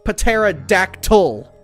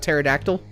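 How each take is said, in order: First: Every sound in the word is fully enunciated. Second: The word is said normally, without enunciating everything. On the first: The speaker calls it wrong. "There you go. Sounds amazing, doesn't it?" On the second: The speaker calls it right. "Instead of"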